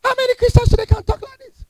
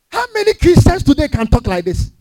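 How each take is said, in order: First: How many Christians pitched high, faster; high emphatic repeat. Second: Said in the usual way. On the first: Real, not acted. Preacher repeating the question to the congregation, high and quick. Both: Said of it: "said again".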